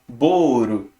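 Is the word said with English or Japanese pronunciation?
Japanese. It is two syllables with an R-like sound. A Japanese speaker adapts the foreign word. "mas ele não vai pronunciar ball"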